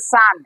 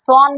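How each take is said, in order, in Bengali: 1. স্বরধ্বনিটি একটি খোলা 'ah' ধ্বনি। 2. স্বরধ্বনিটি একটি গোলাকার 'o' ধ্বনি। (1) "এটার উচ্চারণ করা লাগবে সান" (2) "এটা তোমরা উচ্চারণ করছো এস ও এন সন বলে ফেলছো"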